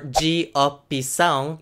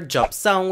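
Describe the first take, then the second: First: It is said as four separate syllables. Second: It is squeezed into about two syllables. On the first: "which would be four syllables" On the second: "which would be basically two syllables"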